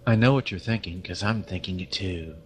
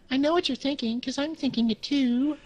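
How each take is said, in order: First: It is said in an ordinary voice. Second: It is said in a meowing cat-like voice. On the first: The speaker calls it wrong. "How is that a kitty voice?" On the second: The speaker calls it right. "do it like that"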